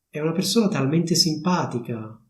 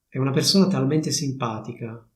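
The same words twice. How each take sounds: First: It is said as a lively exclamation. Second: It is said as a plain statement.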